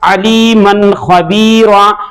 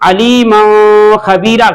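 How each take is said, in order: First: The n is clear and quickly released. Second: The n is drawn out through the nose. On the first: The speaker calls it right. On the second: The speaker calls it wrong.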